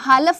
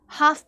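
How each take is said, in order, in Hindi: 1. इस शब्द में एल की आवाज़ है। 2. इस शब्द में एल की आवाज़ नहीं है। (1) "हालफ नहीं पढ़ते हो आप" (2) "हाफ पढ़ते हो"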